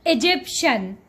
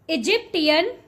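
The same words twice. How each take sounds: First: The word ends with a 'shen' sound. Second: The word does not end with a 'shen' sound. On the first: The speaker calls it right. "Shen, shen" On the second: The speaker calls it wrong. "You are completely mispronouncing this word"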